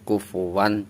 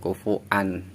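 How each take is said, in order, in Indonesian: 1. Ada bunyi w yang jelas sebelum 'an' terakhir. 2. Tidak ada bunyi w sebelum 'an' terakhir. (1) "Kufuwan jangan kufuan karena yang berharokat ini huruf wawu" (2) "jangan kufuan"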